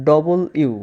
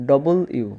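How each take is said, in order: Both takes have the same delivery.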